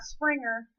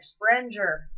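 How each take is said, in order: First: The first vowel sounds like 'ih'. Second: The first vowel sounds like 'eh'. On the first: The speaker calls it wrong. "not Springer" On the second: The speaker calls it right. "Sprenger, not Springer"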